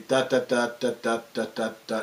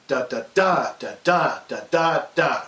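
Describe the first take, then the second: First: Every "da" short and even, lower and softer; "da, da, da" ticked out evenly like Morse code; meter without accent. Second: "da, da, da" with strong beats held long; accented meter. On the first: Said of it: "if we wanted to express that meter". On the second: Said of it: "Now we add to it the accent". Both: Shown as a demonstration.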